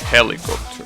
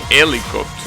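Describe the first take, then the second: First: The word starts with an h sound. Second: The word starts without an h sound. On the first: The speaker calls it right. "in English it's helicopter" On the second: The speaker calls it wrong. "I forget the H because that's how it's said in Spanish"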